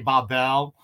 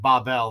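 First: The stress is on the second syllable. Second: The stress is on the first syllable. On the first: This is how French speakers say it. "The French say Babel" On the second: This is how Hebrew speakers say it. "They actually stress the first part first"

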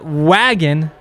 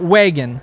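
First: The vowel is said with a standard accent. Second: The vowel is said with a Montana accent. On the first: The speaker calls it right. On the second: The speaker calls it wrong.

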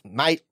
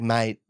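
First: The word is said in a sharp, aggressive tone. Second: The word is said in a friendly, casual tone. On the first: "He always uses it aggressively" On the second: "It's not like mate"

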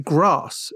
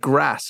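First: It has a long southern 'ah' vowel. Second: It has a short northern 'a' vowel. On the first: This is how southern people say it. "Because you say grass and you say bath" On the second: This is how northern people say it. "You don't say grass and bath"

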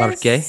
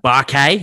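First: It is said in the speaker's normal accent. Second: It is said in an exaggerated Aussie accent.

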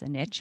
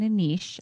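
First: Niche is said the American way. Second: Niche is said the Canadian way.

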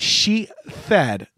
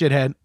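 First: The word sounds like 'she-thed'. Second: The word sounds like 'shit-head'. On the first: The speaker calls it wrong. "Do you pronounce that she-thed?" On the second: The speaker calls it right. "No, it's pronounced shithead"

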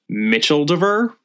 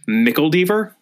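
First: The middle consonant is a soft ch sound. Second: The middle consonant is a hard k sound. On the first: "I thought that this was pronounced Mitcheldever" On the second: "let's just go with that"

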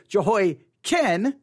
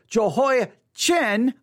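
First: The last syllable is said as 'kin'. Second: The last syllable is said as 'chin'. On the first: The speaker calls it right. "now you could say Jehoiakim" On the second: The speaker calls it wrong. "I'm saying Chin, I know that isn't correct"

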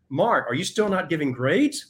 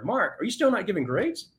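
First: The question sounds accusing and critical. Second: The question sounds friendly and curious.

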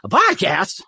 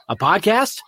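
First: It is said as an incredulous, exclaiming outburst. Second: It is said flatly, as a plain title.

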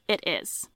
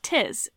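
First: The words are said as two full syllables. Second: The words are contracted into one syllable.

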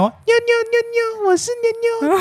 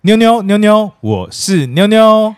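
First: It is said in a put-on cute childlike voice. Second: It is said in the speaker's normal voice.

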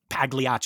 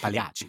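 First: The G sound is clearly pronounced. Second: The G sound is left silent. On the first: The speaker calls it wrong. "you don't say Pagliacci" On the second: The speaker calls it right. "you say Pagliacci"

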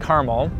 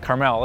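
First: The name has its usual English pronunciation. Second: The name has a Hebrew-style pronunciation.

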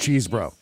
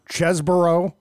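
First: The first syllable sounds like 'cheese'. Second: The first syllable sounds like 'chess'. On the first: "I'm always going with Ken Cheesebro" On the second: "What are they saying now?"

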